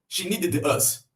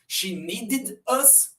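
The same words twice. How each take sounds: First: The ending of needed sounds like a plain 'd'. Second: The ending of needed sounds like 'id'. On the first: The speaker calls it wrong. "se eu colocar só o D depois de need" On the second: The speaker calls it right. "primeiro com id"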